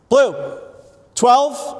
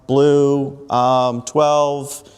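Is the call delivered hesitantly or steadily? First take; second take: steadily; hesitantly. First: It is slow, clear and steady without fillers. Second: It is hesitant, broken up by filler sounds. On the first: The speaker seems in control. The speaker calls it right. "It's slow, it's clear, and it's in control" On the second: The speaker seems unsure and not in control. The speaker calls it wrong. "first time it's like"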